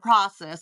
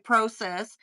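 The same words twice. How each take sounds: First: It is said in the usual American way. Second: It is said in a non-American way. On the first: This is the form the network wanted her to use. "instead of process" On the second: This is how the host herself says it. "She'll say process"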